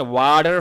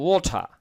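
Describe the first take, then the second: First: American "ওয়াটার" with a flapped t, "wah-der"; American-style "wah-dar"; American pronunciation. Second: British "ওয়াটার" with a rounded o and hard t, "waw-tah"; British-style "waw-tah", final r dropped; British pronunciation. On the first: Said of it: "আমেরিকার উচ্চারণ এখানে ওয়াটার হবে". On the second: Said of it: "British উচ্চারণ হলে হতো ওয়াটার". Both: Shown as a demonstration.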